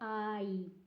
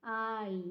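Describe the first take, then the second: First: The vowel glides between two sounds. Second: The vowel glides between two sounds.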